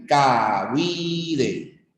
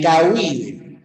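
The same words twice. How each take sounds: First: "cahuide" drawn out slowly as ca-hui-de; separación por sílabas. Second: Said in the usual way. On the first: Shown as a demonstration. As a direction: say "cahuide" slowly, stretching each syllable: ca-hui-de. ("cahuide" lento, separado en sílabas: ca-hui-de) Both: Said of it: "esa vendría a ser la separación".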